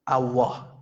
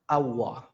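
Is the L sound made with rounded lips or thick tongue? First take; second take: rounded lips; rounded lips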